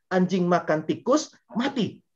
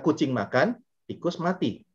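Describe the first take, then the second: First: Slow "anjing makan tikus" held up, then high "mati"; pause before MATI. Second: "kucing makan", pause, then "tikus mati"; pause after MAKAN. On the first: Speaker shows the dog died after eating, break before "mati". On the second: Speaker shows how intonation changes meaning, pause after "makan". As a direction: split it into two statements, breaking after "makan". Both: Shown as a demonstration. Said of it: "Kalau intonasinya beda, ini artinya sangat berbeda".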